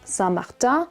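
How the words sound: The name is said with French pronunciation. "or in French pronunciation"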